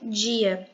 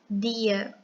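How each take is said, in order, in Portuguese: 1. O d é falado com chiado. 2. O d é falado seco, sem chiado. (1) "a gente percebe que tem um chiado" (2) "com esse tom é, mais seco"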